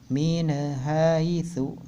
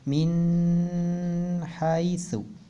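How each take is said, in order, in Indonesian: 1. Bunyi n-nya memantul dengan gema. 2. Bunyi n-nya ditahan sebentar. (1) "dan tidak juga qalqalah" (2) "atau tidak ditahan"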